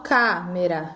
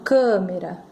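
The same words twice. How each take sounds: First: The stressed vowel is said open. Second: The stressed vowel is said closed. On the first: The speaker calls it wrong. "eu não falo câmera" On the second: The speaker calls it right. "eu falo câmera"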